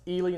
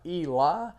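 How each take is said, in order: First: The name ends with an 'ee' sound. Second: The name ends with an 'eye' sound. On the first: The speaker calls it right. "It is pronounced Ely" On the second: The speaker calls it wrong. "not Eli"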